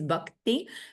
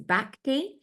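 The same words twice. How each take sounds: First: It is pronounced closer to the Sanskrit original. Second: It is pronounced in an anglicized English way. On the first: The speaker calls it right. "A closer pronunciation is bhakti" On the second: The speaker calls it wrong. "a very anglicized pronunciation of the Sanskrit"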